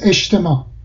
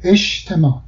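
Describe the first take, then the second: First: The consonant before t sounds like sh. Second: The same.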